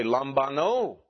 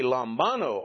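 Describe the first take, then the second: First: Lambano with the stress on the final NO, lam-ba-NO; stress on last syllable. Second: Lambano with the stress on BA, lam-BA-no; stress on second-to-last syllable. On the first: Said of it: "or do we accent here". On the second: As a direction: punch the middle syllable of lambano. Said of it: "do we accent here". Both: Shown as a demonstration.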